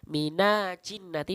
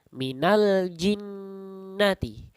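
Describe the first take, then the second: First: The l sound before jinnati is left out. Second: The l sound before jinnati is clearly pronounced. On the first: The speaker calls it wrong. "ketika dibaca mina jinnati maka kurang tepat" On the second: The speaker calls it right. "maka nanya masuk ke dalam lam"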